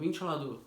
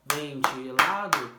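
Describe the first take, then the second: First: Said in the usual way. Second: "Ventilado" slow and loud, syllable by syllable; syllables beaten out. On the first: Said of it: "Fala uma palavra de três sílabas". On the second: Shown as a demonstration. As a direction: beat out "Ventilado", hardest on the stressed syllable. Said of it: "a palma que bater mais forte é a sílaba tônica". (Ventilado pausado, batendo sílaba por sílaba)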